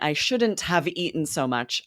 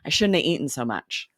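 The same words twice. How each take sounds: First: Each word is said fully and separately. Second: The words are run together, dropping sounds. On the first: "instead of saying" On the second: "we're s- cramming it all together and dropping so many sounds"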